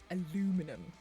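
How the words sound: It is said with four syllables, American style. "your American words are like aluminum"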